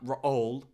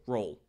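First: The word is stretched into two syllables. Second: The word is said as one syllable. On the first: The speaker calls it wrong. "Why is there two syllables in that?" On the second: The speaker calls it right. "One syllable"

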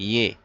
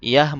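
First: The word ends with an 'eh' vowel. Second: The word ends with an open 'ah' vowel. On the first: The speaker calls it right. "ইয়ে বলতে হবে" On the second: The speaker calls it wrong. "ইয়াহ বলা যাবে না"

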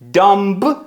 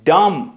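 First: A b sound is heard at the end. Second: The word ends on the m sound. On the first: The speaker calls it wrong. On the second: The speaker calls it right.

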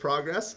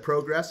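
First: The word progress is said a non-Canadian way. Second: The word progress is said the Canadian way. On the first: "instead of progress" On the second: "when you said progress ... it's a nice Canadian tell in the accent"

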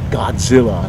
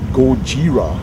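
First: The middle consonant is a 'dz' sound. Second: The middle consonant is a 'j' sound. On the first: The speaker calls it wrong. "not Godzilla, nobody pronounces the Z in Japanese" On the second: The speaker calls it right. "it's more like Gojira"

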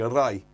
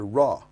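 First: The vowel ends with an 'ee' glide. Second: The vowel stays plain with no glide. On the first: This is how it is pronounced today. "modern Welsh, we say rai for the sun, but that's a kind of modern corruption" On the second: This matches the spelling and the old form. "If you look at the spelling, it's a ra"

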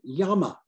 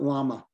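First: The word has a South American Spanish pronunciation. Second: The word has an ordinary English pronunciation. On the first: "in South America, they say llama" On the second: "not llama"

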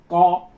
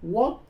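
First: The character is read in Cantonese pronunciation. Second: The character is read in Vietnamese pronunciation. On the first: "co là người Quảng Đông" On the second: "chúng ta người Việt thì đọc cái chữ này là quốc"

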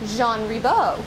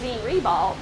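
First: The name is pronounced the French way. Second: The name is pronounced the English way. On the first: This is the name's original form. "the actual French pronunciation is" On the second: This is the common local form of the name. "when we see it on signs and when we see it the school listed"

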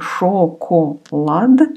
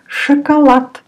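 First: Every letter is pronounced fully, as spelled. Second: Pronounced naturally, with unstressed vowels reduced. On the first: This is how the word is spelled. "It's written шоколад" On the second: This is how the word is actually spoken. "You say шоколад"

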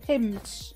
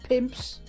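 First: No P sound comes before the final S. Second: A P sound comes before the final S. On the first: The speaker calls it right. "Without the P" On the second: The speaker calls it wrong. "Not pimps"

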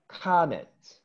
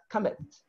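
First: The vowel sound is long. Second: The vowel sound is short. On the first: The speaker calls it right. "this comment has a long sound" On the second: The speaker calls it wrong. "you are going to say not comment"

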